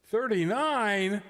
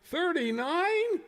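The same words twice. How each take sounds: First: Surprised. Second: High, slow disbelieving repeat; incredulous. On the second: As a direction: stretch it out in shock. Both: Real, not acted. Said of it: "Would you care to repeat that?".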